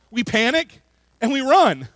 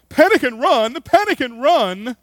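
First: Said in the usual way. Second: High, loud cry in a hammed-up fake British accent; bad fake British accent. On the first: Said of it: "that's how we respond to conflict". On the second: Preacher imitating the cartoon zebras, bad fake British accent. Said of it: "their very bad fake British accents and cry out".

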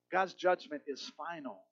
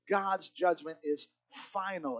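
First: Said in the usual way. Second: God's judgment is final, slow with a pause before final; slow emphatic final. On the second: Shown as a demonstration.

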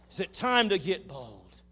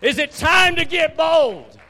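First: Raised voice, short of a scream; emphatic rallying call. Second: Very high, drawn-out preacher's yell; full-force rallying shout. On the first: Preacher putting the question to the congregation, emphatic call. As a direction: ask it loudly, higher, easing off towards the end. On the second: Preacher challenging the congregation to get bold, huge shout. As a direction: throw the question out slowly at the top of your voice. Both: Real, not acted.

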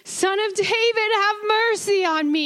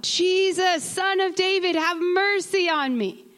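First: Much higher, straining plea; imagine the beggar crying out all the more; desperate cry. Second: Higher pleading call of the blind man; a lightly voiced beggar calling for help; crying out. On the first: Retold or imitated. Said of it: "what it must have sounded like". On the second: A narrator's reading. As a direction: blind beggar calls to Jesus, a higher plea. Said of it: "And he cried out".

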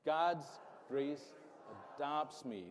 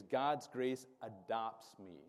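First: "God's grace adopts me" said firmly, each word set apart; mean every word of "God's grace adopts me"; with conviction. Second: Slow, spaced-out call for the crowd to repeat; slow lead line. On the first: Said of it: "say it like you mean it". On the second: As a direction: lay it out slowly so they can echo it. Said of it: "The third thing I want you to say with me is". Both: Shown as a demonstration.

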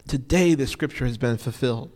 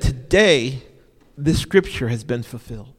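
First: Said in the usual way. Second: Ringing out TODAY then dropping; proclaiming Jesus' words. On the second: Retold or imitated. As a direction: announce it like a proclamation. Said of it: "Jesus said".

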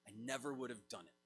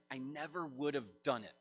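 First: Softer, quicker echo of the line; quiet emphatic repeat. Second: Said in the usual way. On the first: Shown as a demonstration. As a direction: let the words sink in, said low and fast. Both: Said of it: "I want those words to ring in your ears".

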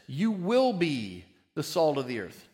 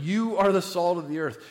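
First: "will" stressed, as the false version; wrong future take. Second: "are" pressed louder as the right version; stress on are. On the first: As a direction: lean on "will" to show it is wrong. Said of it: "It's not future tense". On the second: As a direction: land on "are" to say it is now. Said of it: "It means it's happening now". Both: Shown as a demonstration.

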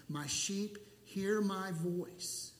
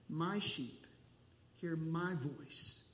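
First: Said in the usual way. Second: Slow "My sheep, hear my voice", leaning on each "my"; stress on MY. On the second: Shown as a demonstration. Pastor repeats the verse on Jesus knowing his sheep, stress on MY. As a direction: stress "my" both times, pausing after "sheep".

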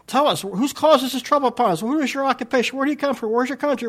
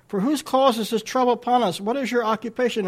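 First: High, loud, frantic rush of questions; panicked and fast. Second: Said in the usual way. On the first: Shown as a demonstration. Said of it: "they're saying this all real fast". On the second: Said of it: "I imagine these guys are panicking".

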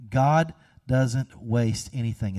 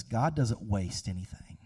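First: Slower, each word weighted, "God" leaned on; measured, emphatic restatement; slow emphasis. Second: Hushed, almost under the breath; quiet, inward statement; soft. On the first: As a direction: lean into "God" and let it sink in slowly. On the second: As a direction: drop it down to a near hush. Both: Shown as a demonstration.

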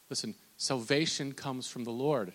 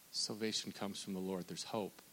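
First: Said in the usual way. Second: Softer, settled refrain; soft reassurance. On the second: Acted. Preacher answering the depressed listener softly. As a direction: lay it down gently as comfort.

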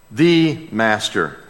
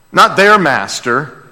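First: "the" slow and weighty with a falling close; "the" said slowly as the right word; stress on the. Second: "their" lifted with a rising tune; "their" pushed up as the wrong word; stress on their. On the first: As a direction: drag out "the" and land it down. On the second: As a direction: lean on "their" and let it rise. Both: Shown as a demonstration.

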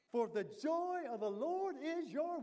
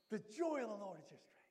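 First: Slow, loud build rising on Lord, left hanging; fill-in-the-blank prompt. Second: Said in the usual way. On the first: Shown as a demonstration. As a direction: stretch it out and leave the last word open for the crowd.

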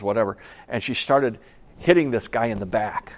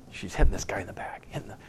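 First: Said in the usual way. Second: Hushed, breathy retelling; whisper. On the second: A narrator's reading. Preacher whispering the story's climax to his congregation. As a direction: drop to a secret whisper to pull them in.

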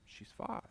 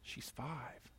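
First: Whispered, much softer; whispered inner voice. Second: Hushed, much softer reply; soft inner voice. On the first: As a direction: breathe it out like a voice in his head. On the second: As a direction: answer gently from within. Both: Retold or imitated. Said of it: "And I hear back".

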